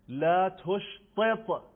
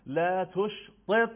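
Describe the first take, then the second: First: لا تشطط slow, in a recitation voice; slow model phrase. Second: لا تشطط slow and louder, with each ت clear; slow model phrase. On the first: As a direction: spell out لا تشطط slowly. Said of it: "مثلاً". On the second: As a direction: recite لا تشطط slowly and fully. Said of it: "ت دسته دار". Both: Shown as a demonstration.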